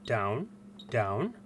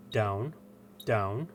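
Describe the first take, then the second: No difference in how they are said.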